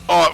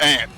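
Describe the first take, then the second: First: The vowel sounds like the one in 'father'. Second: The vowel sounds like the one in 'cat'. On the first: This is how people here say it. The speaker calls it right. "that's aunt for us" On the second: This is how people elsewhere say it. The speaker calls it wrong. "not aunt"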